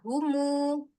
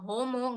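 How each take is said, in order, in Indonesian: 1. Vokalnya terdengar seperti 'u' yang jelas. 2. Vokalnya terdengar seperti 'o' terbuka. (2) "homo enggak"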